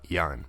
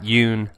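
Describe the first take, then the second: First: The vowel sounds like the one in fun. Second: The vowel sounds like the one in moon. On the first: The speaker calls it right. "that's how you pronounce his last name" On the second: The speaker calls it wrong. "Not Yoon"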